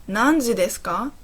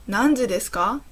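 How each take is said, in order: No difference in how they are said.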